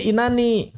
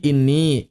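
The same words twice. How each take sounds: First: "inani" as in-na-ni, higher pitched; bentuk asli. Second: "ini" as inni, the n doubled; bentuk idgham. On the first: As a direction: sound every syllable of "inani", na before ni. (lafalkan "inani" lengkap, in-na-ni) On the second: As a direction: hold the n in "ini", inn-ni. (lafalkan "ini" sebagai inni, nun ditahan) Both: Shown as a demonstration.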